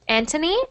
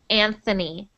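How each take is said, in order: First: The middle sound is a plain t. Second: The middle sound is a th. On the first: "in Spanish we only say ant, Antony" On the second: "in English we pronounce that Anthony"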